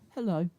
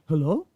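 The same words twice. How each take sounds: First: It is said plainly, without surprise. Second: It is said questioning and startled.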